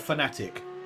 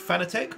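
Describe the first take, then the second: First: The last syllable sounds like 'tick'. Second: The last syllable sounds like 'tech'. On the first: "Is it Fanatec or Fanatic?" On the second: "Is it Fanatec or Fanatic?"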